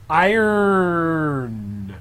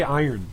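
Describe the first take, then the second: First: "Iron." drawn out, weight on the final n, higher and louder; iron with stress on n. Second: Said in the usual way. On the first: Shown as a demonstration. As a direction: say "Iron." leaning hard on the n at the end. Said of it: "emphasis on N there". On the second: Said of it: "putting the, uh, emphasis on N".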